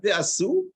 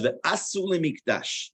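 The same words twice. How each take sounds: First: Ve'asu pitched higher and rising, stress moved back; wrong stress. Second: Ve'asu mikdash slow, stress on the last syllable of ve'asu; correct stress. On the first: Teacher contrasting the wrong stress on ve'asu. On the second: Teacher giving the right reading of the verse. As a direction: say Ve'asu mikdash deliberately, ending strong. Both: Shown as a demonstration.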